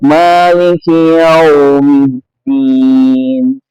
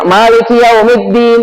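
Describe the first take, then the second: First: The word is said softly with a swaying flow. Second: The word is said hard without a swaying flow. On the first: The speaker calls it right. "yaumiddin itu dibaca dengan lembut" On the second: The speaker calls it wrong. "itu nggak tepat, harusnya dibaca lembut"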